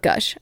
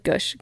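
First: Said in the usual way. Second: "gush" with the vowel of "push"; goosh pronunciation. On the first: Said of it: "I like that she said gush". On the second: Shown as a demonstration. Pointing out the listener's word, "gush" said like "goosh". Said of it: "not gush".

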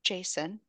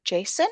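First: "Jason" said softly, as an answer; soft, reluctant "Jason"; quiet answer. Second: "Jason" lifted into a question; "Jason?" as a checking question. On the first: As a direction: give the name "Jason" quietly, without questioning. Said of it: "he's intense that she's just like". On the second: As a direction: echo "Jason" with a rising, questioning end. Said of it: "he's like". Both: Retold or imitated.

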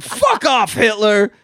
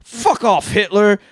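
First: High, loud, gleeful fuck off; shouted again. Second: High, loud fuck off; shouted line. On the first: Relishing the quote for cohosts, high shout. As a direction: belt it with delight. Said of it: "another great line". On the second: Quoting Jojo's big line to cohosts, shouted. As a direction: yell it like a furious kid. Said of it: "we get another great line". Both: Retold or imitated.

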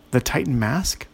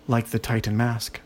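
First: "The Titan mask?" with a rising questioning end. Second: Said in the usual way. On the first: A narrator's reading. Ogre queries the fairy on "The Titan mask?", questioning rise on "mask". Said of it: "Ola asked".

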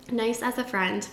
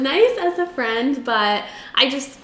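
First: Said in the usual way. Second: Choking while talking; choking on drink. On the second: Real, not acted. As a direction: voice catching from choking. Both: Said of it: "I keep choking".

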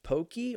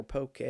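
First: POKEY said with a "kee" ending; "pokey" rhyming with okey; pronounced pokey. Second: "poke" rhyming with okay; pronounced poh-kay. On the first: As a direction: end "pokey" on an ee sound. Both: Shown as a demonstration. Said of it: "Is it pronounced pokey or poke?".

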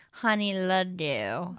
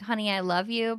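First: Slow, slurred, low-pitched tipsy delivery. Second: Said in the usual way. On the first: Shown as a demonstration. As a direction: run the words together like you drank too much. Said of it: "like when you drank too much". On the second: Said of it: "but, like".

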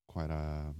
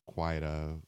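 No difference in how they are said.

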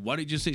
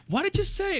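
First: Said in the usual way. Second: High-pitched mock mom, demanding; mock angry mom. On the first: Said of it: "And when she said". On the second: Mom confronting her son after he swore, high mock voice. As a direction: squeal it like an outraged mother. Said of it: "so she went".

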